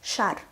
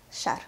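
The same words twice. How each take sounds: First: Шар said slowly and carefully; slow demonstration. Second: Шар said short and softly; native-speaker reading. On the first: Teacher reads Шар for beginners to imitate, slowly. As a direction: draw out Шар for learners. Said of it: "I will read the word slowly". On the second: Teacher models Шар for learners, natural native pace. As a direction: say Шар casually at natural speed. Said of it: "read the word as a native speaker". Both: Shown as a demonstration.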